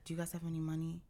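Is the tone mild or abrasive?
mild. It is said in a mild, plain tone.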